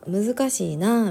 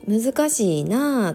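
First: It has a softer Kyoto-style intonation. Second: It has a strongly rising and falling Osaka intonation. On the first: "京都の人とか難しいなみたいな" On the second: "関西の人だったらとか大阪の人だったら難しいなとか言うと思う"

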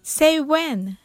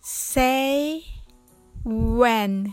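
First: It is said fast. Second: It is said slowly.

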